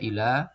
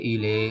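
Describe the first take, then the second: First: The final vowel is a plain open a. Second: The final vowel leans toward an e sound. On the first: The speaker calls it right. "ila dibaca ila" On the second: The speaker calls it wrong. "tidak dibaca ... ile"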